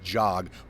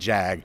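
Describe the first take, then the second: First: The vowel is an open 'o' as in 'jog'. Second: The vowel is a flat 'a' as in 'jag'. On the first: The speaker calls it right. "I found out it is Jog" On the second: The speaker calls it wrong. "more than Jag"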